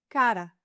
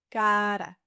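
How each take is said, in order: First: Said in the usual way. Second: Slow, level "Cara", first vowel held; drawn-out demonstration. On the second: Shown as a demonstration. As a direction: stretch "Cara" slowly for learners. Word repeated slowly.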